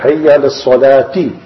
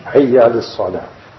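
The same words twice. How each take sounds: First: "salati" with an added i; wrong ending. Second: "salah" closed on the h; correct stop. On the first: Teacher showing a common mistake with "salati". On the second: Teacher showing the right "salah". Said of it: "Many read like that also". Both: Shown as a demonstration.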